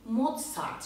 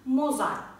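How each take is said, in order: First: The middle consonant is a ts sound. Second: The middle consonant is a plain z sound. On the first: The speaker calls it right. "Almanca'da Z harfi T S şeklinde telaffuz edilir" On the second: The speaker calls it wrong. "Mozart değil"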